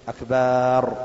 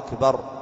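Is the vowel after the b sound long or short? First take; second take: long; short. First: The vowel after the b is drawn out long. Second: The vowel after the b is short. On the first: It means drums. The speaker calls it wrong. "ولا يمد الباء فيقول أكبر" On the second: It means greatest. The speaker calls it right. "أن يبينها"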